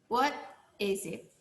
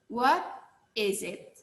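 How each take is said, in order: Both takes have the same delivery.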